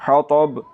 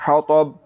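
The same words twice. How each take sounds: No difference in how they are said.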